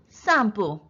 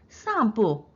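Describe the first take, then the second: No difference in how they are said.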